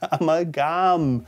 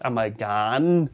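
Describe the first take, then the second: First: The word ends with a clear m sound. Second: The word does not end with an m sound. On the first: The speaker calls it right. "Amalgam is correct" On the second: The speaker calls it wrong. "not amalgam"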